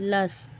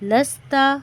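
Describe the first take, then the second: First: The word ends on a bare consonant. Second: The word ends with a final vowel.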